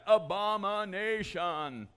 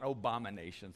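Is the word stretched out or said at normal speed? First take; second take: stretched; normal. First: The word is drawn out slowly. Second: The word is said at normal speed.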